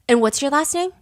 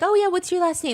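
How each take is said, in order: First: It sounds cold and threatening. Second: It sounds casual and friendly.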